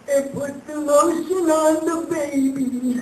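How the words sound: It is said in June's character voice.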